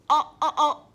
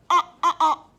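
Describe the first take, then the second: No difference in how they are said.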